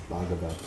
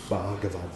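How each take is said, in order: No difference in how they are said.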